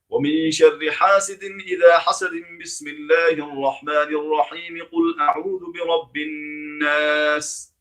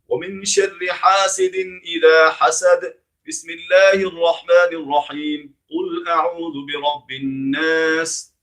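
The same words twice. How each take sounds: First: Everything runs together without any pause between parts. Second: Pauses separate the verse, basmala and next verse. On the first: "This one all together" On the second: "all separate"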